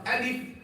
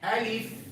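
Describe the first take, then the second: First: The f sound is cut short without breath. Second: The f sound flows out with breath. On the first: The speaker calls it wrong. "not alif" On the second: The speaker calls it right. "a little breath, ... the sound will flow"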